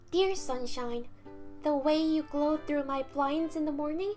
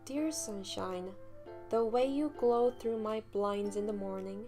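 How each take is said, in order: First: It is read in a put-on female character voice. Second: It is read in the speaker's own voice.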